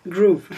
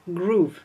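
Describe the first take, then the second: First: "Groove" repeated louder with an American r and a long oo; American accent. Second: "Groove" said with an American r and a long oo; English-style "Groove" in a French sentence; American-accented Groove. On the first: Shown as a demonstration. Joking to viewers about her American accent. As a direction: show off the American "Groove" once more. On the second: Real, not acted. Telling viewers the software name, American accent. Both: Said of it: "avec mon accent hyper américanisé".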